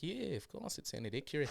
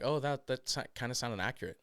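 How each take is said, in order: First: Soft New Zealand accent; understated, matter-of-course New Zealand accent. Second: Said in the usual way. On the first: Shown as a demonstration. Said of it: "I did a, a New Zealand accent". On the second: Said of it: "people were like".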